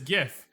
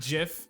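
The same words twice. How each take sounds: First: The word begins with a hard G sound. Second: The word begins with a J sound. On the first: The speaker calls it right. "It is GIF" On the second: The speaker calls it wrong. "not GIF. All right, this isn't peanut butter"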